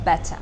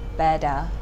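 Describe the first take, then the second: First: The middle T is said as a clear T sound. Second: The middle T is said as a soft D sound. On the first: This is the British way. "But in a British accent, they pronounce it better" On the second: This is the American way. "They don't pronounce the T, they tend to pronounce T like a D"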